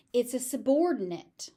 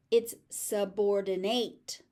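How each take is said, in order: First: „subordinate“ ending in -nit; weak -NIT at the end; noun ending. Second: „subordinate“ ending in -NATE, slower; full -NATE ending; verb ending. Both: Shown as a demonstration. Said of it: "the ending is pronounced slightly differently".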